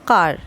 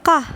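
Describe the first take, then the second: First: কার with the final R pronounced; American sounded R. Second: কাহ as open "kaa" with no R; British silent R. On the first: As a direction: finish কার on a clear American R. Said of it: "American ওয়ার্ডে উচ্চারণ হবে". (American উচ্চারণে "কার", শেষে র উচ্চারিত) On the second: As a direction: drop the R and end কাহ on the vowel. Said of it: "British উচ্চারণ হবে". (ব্রিটিশ উচ্চারণে "কাহ", র ছাড়া) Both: Shown as a demonstration.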